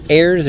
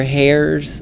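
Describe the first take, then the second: First: Heirs with no h at the start; silent h. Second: Hairs with an h at the start; sounded h. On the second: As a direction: say Hairs with a breath of h first. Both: Shown as a demonstration. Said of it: "Is it Heirs or Hairs?".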